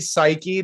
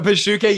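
First: The word is said with two syllables, 'sai-kee'. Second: The word is said with three syllables, 'pi-shu-ke'. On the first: This is the intended standard word. "it's supposed to be psyche" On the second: This is how a text-to-speech voice renders the word. "That's psyche pronounced by a computer system"

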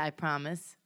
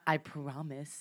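First: The first vowel of promise sounds like 'pram'. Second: The first vowel of promise sounds like 'prom'. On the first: "I say P-R-A-M-I-S-E"

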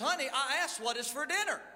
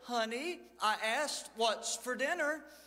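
First: It is said nearly as a shout. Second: It is said a little louder.

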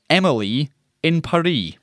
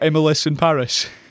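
First: Paris is said without its final s, rhyming with Emily. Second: Emily gets a final s, rhyming with Paris. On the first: "Emily should be rhyming with Paris. So it should be" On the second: "I thought you meant the other way around"

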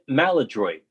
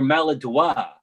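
First: The word is pronounced with English sounds. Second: The word is pronounced with French sounds.

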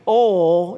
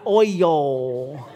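First: The word is said as one syllable. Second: The word is said as two syllables. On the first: The speaker calls it right. "It is only one syllable. ... so y'all got to start saying some things southern" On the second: The speaker calls it wrong. "not oil"

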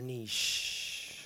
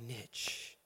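First: The word is said in a fancy, posh way. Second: The word is said in a plain, everyday way.

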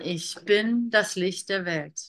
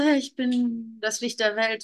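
First: It is said with full, forceful energy. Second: It is said lightly, without much energy.

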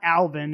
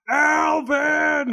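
First: The name is said at normal volume. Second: The name is yelled loudly. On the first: The speaker calls it wrong. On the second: The speaker calls it right.

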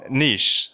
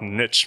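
First: It is said with a non-Southern pronunciation. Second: It is said with a Southern US pronunciation. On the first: Saying it this way feels less manly. "I feel like a part of my manhood is lost when I say niche" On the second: This is the familiar local way to say it. "That's how we say it down in the South"

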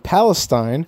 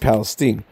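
First: It is said the standard, widely used way. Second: It is said the way the Texas locals say it. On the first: This is how outsiders would correct the name. The speaker calls it wrong. "don't try to correct me and tell me Palestine" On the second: This is how the town's own residents say it. The speaker calls it right. "They pronounce it Palestine"

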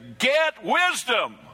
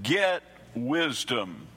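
First: It is said forcefully, like an exclamation. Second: It is said plainly, with little force.

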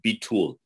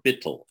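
First: It is said with a Hebrew pronunciation. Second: It is said with a Yiddish pronunciation.

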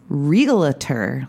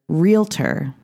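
First: An extra syllable comes between the L and T. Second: No extra syllable comes between the L and T. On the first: "like there's an extra syllable between the L and the T" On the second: "I pronounce realtor"

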